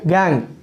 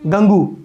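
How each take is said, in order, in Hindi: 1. इसमें एक अक्षर है और यह 'ng' पर खत्म होता है। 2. इसमें दो अक्षर हैं और यह 'oo' पर खत्म होता है। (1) "गैंग है वो" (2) "गंगू नहीं बोलना"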